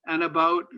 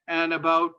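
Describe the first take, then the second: No difference in how they are said.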